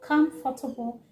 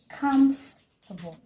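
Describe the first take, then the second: First: The word is said with four syllables. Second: The word is said with three syllables. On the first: The speaker calls it wrong. "making it four syllables" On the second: The speaker calls it right. "three syllable"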